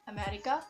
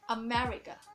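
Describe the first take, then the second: First: The second syllable is not stressed. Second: The second syllable is stressed. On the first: This is how beginners say it. The speaker calls it wrong. "instead of saying America" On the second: This is how native speakers say it. The speaker calls it right. "the native speaker pronounce it like America"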